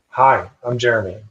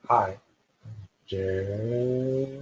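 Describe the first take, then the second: First: It is said at a normal, plain length. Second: It is drawn out long, like a siren.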